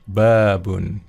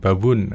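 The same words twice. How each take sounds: First: The first vowel is long. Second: The first vowel is short. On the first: The speaker calls it right. "panjang ya" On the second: The speaker calls it wrong. "Bukan babun. Bukan gitu ya"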